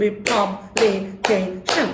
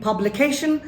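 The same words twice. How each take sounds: First: Publication in slow separate beats: pub, li, ca, tion; syllable by syllable. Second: Said in the usual way. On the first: Shown as a demonstration. Teacher claps a word for students, syllable by syllable. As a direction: clap out each syllable of publication. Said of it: "যে কয়টা clap সেই কয়টা syllable". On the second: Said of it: "আরেকটা word ধরি".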